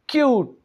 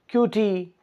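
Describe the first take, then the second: First: No extra vowel sound is added at the end. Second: An extra vowel sound is added at the end. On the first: The speaker calls it right. "एंड वाला वॉल silent हो रहा है" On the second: The speaker calls it wrong. "ऐसा नहीं हम कर रहे"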